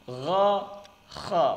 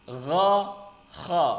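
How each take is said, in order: The two takes are said the same way.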